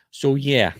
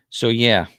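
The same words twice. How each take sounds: First: Slight New Jersey accent on "So yeah"; "So yeah" with a touch of Jersey vowels. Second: Said in the usual way. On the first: Real, not acted. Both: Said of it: "that's my Jersey accent coming out".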